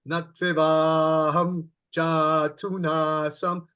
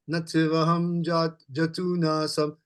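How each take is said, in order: First: The long vowels are drawn out longer. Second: The vowels are said short and quick. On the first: The speaker calls it right. "when you say the long A, overdo it like this" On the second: The speaker calls it wrong. "normally we would say it like this"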